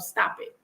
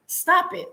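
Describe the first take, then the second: First: Hushed whisper, telling herself to stop; a quiet whispered order to herself while crying; whispered self-command. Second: Higher-pitched firm stop; a raised, pleading order to herself; sharp self-command. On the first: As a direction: whisper it firmly to yourself. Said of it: "I had to tell myself". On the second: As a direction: snap at yourself to quit crying. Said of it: "I had to talk to myself". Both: Retold or imitated.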